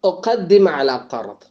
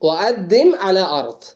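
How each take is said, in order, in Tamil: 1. q ஒலிகள் முழு q ஒலிகளாக உச்சரிக்கப்படுகின்றன. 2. q ஒலிகள் glottal stop ஆக மாற்றப்படுகின்றன.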